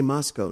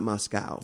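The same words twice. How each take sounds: First: "Moscow" with a long-o last syllable; Moscow as MOSS-koh. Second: "Moscow" with an ow last syllable; Moscow as MOSS-cow. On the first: Traveler telling co-host the local way, "Moscow" as MOSS-koh. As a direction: say "Moscow" to end like go. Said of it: "They must say Moscow". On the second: Traveler showing co-host what not to say, "Moscow" as MOSS-cow. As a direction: say "Moscow" to end like now. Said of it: "not Moscow". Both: Shown as a demonstration.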